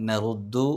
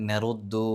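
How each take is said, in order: The two takes are said the same way.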